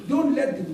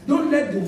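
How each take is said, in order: Both takes have the same delivery.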